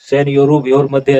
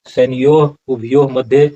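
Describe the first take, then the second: First: The middle word is run together as vyor. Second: The middle word is said fully as ubhayo. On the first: The speaker calls it wrong. "ऐसा उच्चारण नहीं होगा" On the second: The speaker calls it right. "उच्चारण इसका सही करते हैं"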